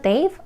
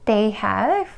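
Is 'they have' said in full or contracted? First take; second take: contracted; full. First: The two words are contracted into one syllable. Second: Both words are said in full.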